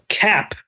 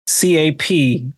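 First: Said in the usual way. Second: C A P spelled slowly letter by letter; spelling it out. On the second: Shown as a demonstration. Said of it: "What does cap mean".

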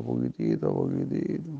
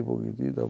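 First: Dropping low and tiny. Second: Said in the usual way. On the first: Shown as a demonstration. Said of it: "así poquitito". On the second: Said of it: "así poquitito, poquitito, poquitito".

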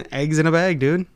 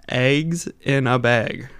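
First: Wisconsin accent. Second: "Eggs in a bag" drawn out slowly in a broad Wisconsin accent. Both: Shown as a demonstration. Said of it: "showing how bad our accent is".

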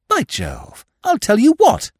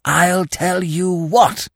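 First: High, eager exclamation; sudden high-pitched enthusiasm; excited outburst. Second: Slow, raised, hoarse stage whisper; drawn-out hoarse whispering. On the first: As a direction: burst out with a bright idea, pitched way up. Sudden idea, told to be quieter. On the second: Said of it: "repeated Freddy in a hoarse whisper". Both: A narrator's reading.

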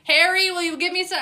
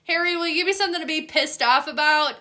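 First: Higher, louder mock plea; TikTok trend voice. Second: Higher, louder, fast mock plea; TikTok trend voice. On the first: Quoting the TikTok trend, higher and louder mock begging. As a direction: pitch it up like the viral clip. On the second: Dogs quoted through the TikTok trend, fast high mock begging. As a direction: rattle it off quick and high like the clip. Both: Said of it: "that TikTok trend right now".

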